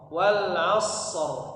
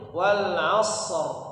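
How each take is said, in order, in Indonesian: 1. Bunyi s ditahan lama sebelum r. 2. Bunyi s ditahan lama sebelum r.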